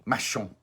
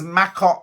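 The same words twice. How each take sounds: First: "Machon" with a soft sh, MA-shon; "Machon", sh sound in the middle, nasal ending; corrected pronunciation. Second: "Macon" read as spelt, MAY-kon with a hard k; "Macon" the way it looks on the page, hard k; "Macon" with a hard k, as written. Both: Shown as a demonstration. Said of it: "Macon is pronounced Machon".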